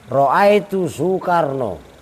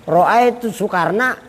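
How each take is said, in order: First: "Soekarno" ending in o after "Ro'aitu", slow and deliberate; wrong case ending. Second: "Soekarna" ending in a long a, slow; correct Arabic case. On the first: Preacher demonstrates the wrong Arabic case, saying "Soekarno" with an o ending. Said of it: "Marortu bisu Karno nggak boleh". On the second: Preacher demonstrates the correct Arabic case, stretching the final a of "Soekarna". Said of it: "emang Soekarna orang Sunda". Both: Shown as a demonstration.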